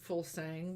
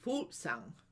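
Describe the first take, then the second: First: The name is said in the local pronunciation. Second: The name is said in the Danish pronunciation. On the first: "here we uh, pronounce it Fulsang" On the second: "in Denmark it would be Fuglsang"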